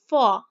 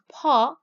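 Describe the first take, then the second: First: It starts with an f sound. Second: It starts with a breathy p sound. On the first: The speaker calls it wrong. "like an F, like fa. This is incorrect" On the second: The speaker calls it right. "the correct pronunciation is paw"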